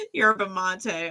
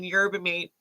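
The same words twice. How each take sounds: First: "Yerba mate" with "mate" as mah-tay; corrected pronunciation. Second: "yerba mate" with "mate" as one syllable, like may; old wrong pronunciation. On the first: Reader repeats the word the viewer corrected, mah-tay. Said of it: "until someone corrected me". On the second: Reader recalls her old mistake, "mate" as may. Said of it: "I would have been saying". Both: Shown as a demonstration.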